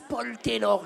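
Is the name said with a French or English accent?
French. The name is said with a French accent.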